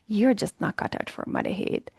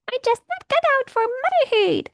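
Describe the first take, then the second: First: It is said in a normal speaking voice. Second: It is said in a squeaky, high cartoon voice. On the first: It sounds like a serious, believable inner criticism. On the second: It sounds ridiculous, so the thought is no longer believed.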